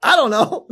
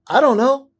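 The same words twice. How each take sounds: First: High, lightly voiced helpless wife; wife's I don't know. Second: High mock-helpless I don't know; clueless I don't know. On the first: Wife answering the therapist, high helpless echo. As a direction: echo him, just as lost. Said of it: "my wife is like". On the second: Husband answering the therapist, high helpless shrug. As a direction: play it lost and sheepish, high. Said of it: "I was like".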